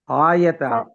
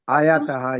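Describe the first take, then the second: First: The word ends without a final breathy sound. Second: The word ends with a final breathy 'ha'. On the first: The speaker calls it wrong. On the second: The speaker calls it right.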